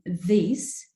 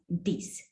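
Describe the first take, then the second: First: The word begins with a th sound. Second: The word begins with a d or v sound. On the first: "the phoneme the in this" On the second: "becomes this"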